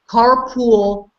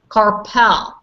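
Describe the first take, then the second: First: The second syllable sounds like pool. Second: The second syllable sounds like a short pal. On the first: The speaker calls it wrong. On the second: The speaker calls it right.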